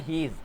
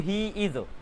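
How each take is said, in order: First: It is said as one shortened contracted word. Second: It is said as two separate full words.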